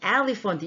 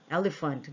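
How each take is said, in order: First: The first vowel is said with a wide-open mouth. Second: The first vowel is said with a small mouth. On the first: The speaker calls it wrong. "그럴 때 elephant 이렇게 해요? 그렇지 않죠?" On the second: The speaker calls it right. "이건 작게 하는 애예요"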